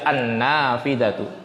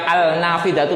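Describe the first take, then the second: First: The L blends into a doubled N sound. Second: The article keeps a clear L sound. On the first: The speaker calls it right. "Tapi baca an-nafidatu" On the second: The speaker calls it wrong. "Jangan dibaca al-nafidatu loh"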